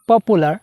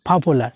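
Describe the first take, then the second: First: The p has no puff of air. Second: The p has a strong puff of air. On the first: The speaker calls it wrong. "আমরা বলি পপুলার" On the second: The speaker calls it right. "আজকে থেকে পি কে ফ বলবো"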